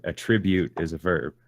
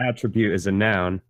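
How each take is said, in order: First: "attribute" as the verb, a-TRIB-ute; stress on second syllable. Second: "attribute" as the noun, AT-tri-bute; stress on first syllable. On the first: Correcting a friend's rule, "attribute" said a-TRIB-ute. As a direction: punch TRIB inside "attribute". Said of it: "On the second syllable in the verb". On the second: Correcting a friend's rule, "attribute" said AT-tri-bute. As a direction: punch AT at the start of "attribute". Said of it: "emphasis is on the first syllable in the noun". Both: Shown as a demonstration.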